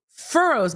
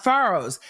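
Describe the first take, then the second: First: FURROWS with a clear "ur" vowel, drawn out; standard pronunciation. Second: FURROWS said the Massachusetts way, like "fah-rows"; Massachusetts pronunciation. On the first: Lawyer finally understanding the witness's word, standard pronunciation of FURROWS. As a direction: say FURROWS slowly, first syllable like "fur". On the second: Lawyer echoing the witness's accented word, Massachusetts pronunciation of FURROWS as "fah-rows". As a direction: open the first vowel of FURROWS to "ah". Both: Retold or imitated. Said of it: "with his Massachusetts accent".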